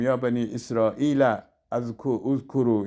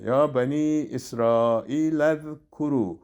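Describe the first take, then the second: First: "اسرائیل اذکرو" split as israila, uzkuru; "اذکرو" started afresh, unjoined from "اسرائیل"; wrongly separated. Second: "اسرائیل اذکرو" run together as israilazkuru, slowly; slow recitation, alef silent in "اذکرو"; joined reading. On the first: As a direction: break before "اذکرو" and sound its first vowel. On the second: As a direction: link the lam of "اسرائیل" straight onto the zal of "اذکرو". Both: Shown as a demonstration.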